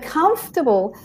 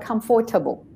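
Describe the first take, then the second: First: The middle 'or' syllable is dropped. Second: The middle 'or' syllable is fully pronounced. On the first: The speaker calls it right. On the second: The speaker calls it wrong.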